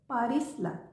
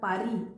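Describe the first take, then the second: First: The name ends with an audible s sound. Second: The name ends on a vowel, no s. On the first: The speaker calls it wrong. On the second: The speaker calls it right.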